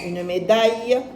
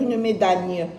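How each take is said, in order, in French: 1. La fin se prononce avec un son proche de Y. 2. La fin se prononce avec un son L clair. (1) "Non, une médaille" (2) "Je ne vais pas dire une médaille"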